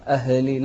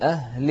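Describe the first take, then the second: First: أهل with a stray vowel after the h, "a-he-li"; faulty echoing h in أهل; wrong bounced h. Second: أهل chanted as "ah-li", no vowel after h; still, unbounced h. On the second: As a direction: let the h in أهل breathe without an echo. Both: Shown as a demonstration. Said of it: "تقلقل الهاء".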